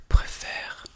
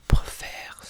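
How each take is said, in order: No difference in how they are said.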